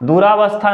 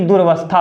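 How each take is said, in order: First: A long 'aa' vowel follows 'dur'. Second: No vowel follows 'dur' before 'vastha'. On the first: The speaker calls it wrong. "दुरावस्था न होकर के" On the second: The speaker calls it right. "बल्कि दुर्वस्था होता है"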